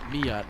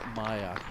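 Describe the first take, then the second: First: The first vowel sounds like 'ee' in 'see'. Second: The first vowel sounds like 'eye'. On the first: The speaker calls it right. "I want to get it correct. Yes, Mia" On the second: The speaker calls it wrong. "not Maya, as I misread that"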